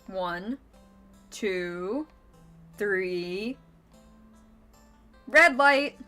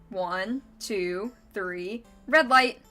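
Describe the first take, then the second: First: The count is said slowly. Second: The count is said fast.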